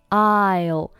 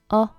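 First: It is said as a full, clear 'I'll'. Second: It is reduced to a short weak vowel. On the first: "单独去读呢，是读作I'll" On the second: "放在句子当中呢，通常会弱读成o"

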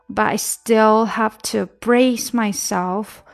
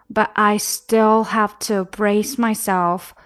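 Both takes have the same delivery.

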